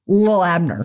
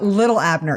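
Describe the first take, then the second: First: The first word is clipped to one syllable. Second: The first word has two full syllables. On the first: The speaker calls it right. "It's Lil Abner" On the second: The speaker calls it wrong. "It's not Little Abner"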